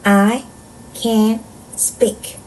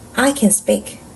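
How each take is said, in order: First: Each word is read with a pause after it. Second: The whole sentence is read without pauses. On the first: "한 단어씩 끊어 읽어볼게요" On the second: "전체 문장 읽기"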